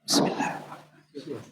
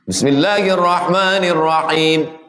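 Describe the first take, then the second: First: It is said silently, barely voiced. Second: It is said aloud in full voice.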